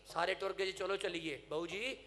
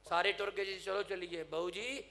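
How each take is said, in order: Both takes have the same delivery.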